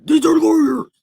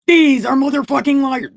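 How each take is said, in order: First: High, crying shout in another voice; loud, high, warped wail; split-personality outburst. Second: High, loud accusation; indignant shout, pitched way up; angry outburst. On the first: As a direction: scream it like an unhinged alter ego. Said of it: "This seriously giving me split personalities". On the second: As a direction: burst out loudly in outrage. Outburst while reading aloud. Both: Acted.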